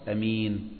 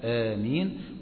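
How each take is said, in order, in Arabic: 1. الحركة الأولى تبقى قصيرة. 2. الحركة الأولى تُمدّ فتكون طويلة. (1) "وفيها القصر أمين" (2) "فيها المد آمين"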